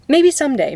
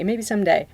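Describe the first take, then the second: First: Higher and louder, dreamy and hopeful; hopeful sing-song. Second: Said in the usual way. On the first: Real, not acted. To chat, dreaming about someday voice acting, hopeful sing-song. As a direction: lift it up like a wish.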